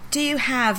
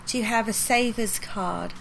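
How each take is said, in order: First: Said in the usual way. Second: Lightly voiced old lady, slow and gentle; slow sweet old English lady. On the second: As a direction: drag each word out like a sweet little old shop lady. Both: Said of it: "she's moved super slow".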